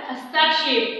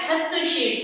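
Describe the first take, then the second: First: हस्ताक्षेप read as written, with a long aa after स्त; teacher reads the wrong spelling हस्ताक्षेप aloud; misspelt form read out. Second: हस्तक्षेप said with a short a, hastak-shep; teacher models the correct हस्तक्षेप for the children; correct pronunciation. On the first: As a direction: sound out हस्ताक्षेप the wrong way, hasta-kshep. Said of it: "क्या लिखा हुआ है?". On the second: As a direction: give the right form हस्तक्षेप, short a after स्त. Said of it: "तो होता क्या है?". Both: Shown as a demonstration.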